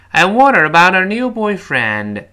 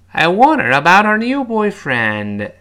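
Both takes have the same delivery.

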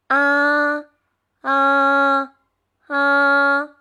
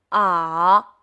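First: The pitch stays high and level. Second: The pitch dips down and then rises. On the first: "汽车平走" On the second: "下坡上坡"

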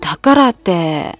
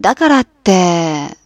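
First: It is said at normal speed. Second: It is said more slowly.

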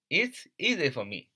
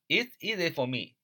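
The two takes are said the same way.

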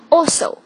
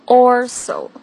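First: It is said without an r sound. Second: It is said with an r sound. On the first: The speaker calls it right. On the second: The speaker calls it wrong.

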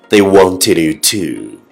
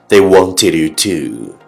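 Both takes have the same delivery.

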